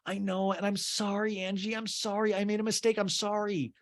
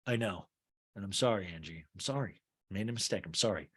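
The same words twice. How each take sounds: First: High, pleading mock apology; switching tactics. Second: Soft, low mock apology; switching tactics. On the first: Jen apologizing to Angie, high and pleading. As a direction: pitch it up like a desperate plea. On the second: Jen switching tactics on Angie, soft and low. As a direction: drop it to a quiet, sincere-sounding sorry. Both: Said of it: "this is called switching tactics in acting".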